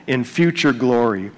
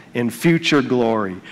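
The two takes are said the same way.

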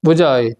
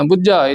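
First: ਬੁਝਾਏ with a soft, single middle consonant; soft pronunciation. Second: ਬੁਝਾਏ with a tight, doubled middle consonant; hard pronunciation. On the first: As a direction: keep the middle consonant of ਬੁਝਾਏ loose and light. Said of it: "ਪੋਲਾ ਰੱਖਣਾ". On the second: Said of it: "ਨਹੀਂ ਬੋਲਣਾ". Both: Shown as a demonstration.

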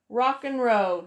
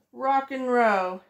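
Both takes have the same delivery.

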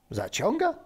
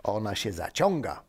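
First: Higher, rising astonished echo; zdumione pytanie. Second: Said in the usual way. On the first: Acted. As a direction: repeat it in rising disbelief. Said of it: "zdumionym wzrokiem". (zdumione, wysokie pytanie)

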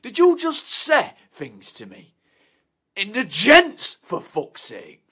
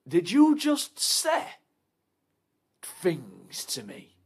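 First: Loud, higher, slowing on the end; outraged shout. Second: Slow, with a high start sinking to a whisper; slow menace. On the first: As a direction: blow up at him. Outraged confrontation in toilet. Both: Acted.

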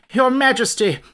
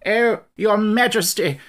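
First: Higher and louder again, frantic; desperate frightened call; rising panic. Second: Slow, high, loud breathless cry; fleeing soldier begging his king; drawn-out frightened wail; panicked plea. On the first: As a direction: panic building as he repeats it. Soldier bursts in fleeing in panic. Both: Acted.

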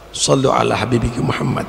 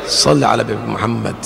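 First: Call out. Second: Said in the usual way. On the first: Acted. Call to the congregation.

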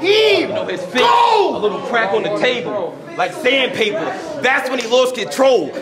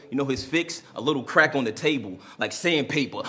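First: High, loud excited yell; hyped shout. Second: Said in the usual way. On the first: Acted. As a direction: scream it over the crowd. Repeated bar, hyped.

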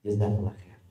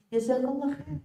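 First: Low, soft thank-you; calm polite reply. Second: Much higher, sing-song thank-you; bright sweet thanks. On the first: Preacher's answer to the insult, lower and gentle. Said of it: "Ketika dia mengatakan". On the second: Preacher answers the mocker with high, sugary thanks. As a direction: kill the insult with sugary kindness. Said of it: "Kira-kira dia akan jawab apa". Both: Retold or imitated.

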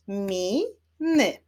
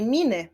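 First: "Mi-ny" split into two separate beats; syllable by syllable. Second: Said in the usual way. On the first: Shown as a demonstration. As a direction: clap out "Mi-ny", pausing between syllables. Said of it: "Wyklaszczmy sylaby". („Mi-ny” sylabami, z przerwą) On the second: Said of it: "Wyklaszczmy sylaby w wyrazie".

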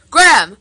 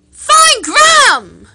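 First: Said in the usual way. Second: Find Graham shouted much higher and louder, slowly; shouted name. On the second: Shown as a demonstration. Coaching a friend to say Graham, shouting Find Graham. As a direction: bellow Find Graham with Graham drawn out. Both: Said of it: "Say it".

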